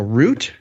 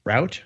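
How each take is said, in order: First: "route" said like "root". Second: "Route" said to rhyme with "out"; route as rout. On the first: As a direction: say "route" to rhyme with "boot". Same word said two ways. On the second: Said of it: "what are we saying this year?". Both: Shown as a demonstration.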